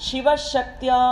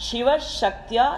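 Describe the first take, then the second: The two takes are said the same way.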